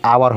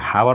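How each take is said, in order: First: The word starts with a vowel sound. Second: The word starts with an h sound. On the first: The speaker calls it right. "प्रोनाउंसिएशन पर करेंगे तो आवर होगा" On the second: The speaker calls it wrong. "हावर नहीं पढ़ेंगे"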